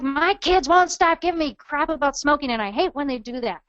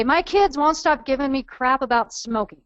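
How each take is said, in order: First: Raised-pitch mock anger, easing at the end. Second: Attitude. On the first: Trainer acting out a mom sick of kids' nagging, angry. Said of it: "or the anger". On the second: Acted. Trainer voicing a mom who smokes, with attitude. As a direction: put a touch of irritated attitude in it. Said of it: "you can kinda hear the attitude in the voice".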